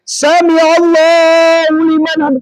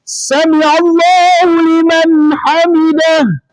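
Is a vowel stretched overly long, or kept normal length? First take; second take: long; normal. First: A vowel is stretched out overly long. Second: The vowels are kept at normal length. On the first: The speaker calls it wrong. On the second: The speaker calls it right. "Seperti itu ya"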